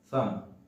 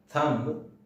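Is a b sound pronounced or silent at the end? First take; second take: silent; pronounced. First: No b sound is heard after the m. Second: A b sound is heard after the m. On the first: The speaker calls it right. "it's thumb ... B is silent in the word" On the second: The speaker calls it wrong. "It's not thumb"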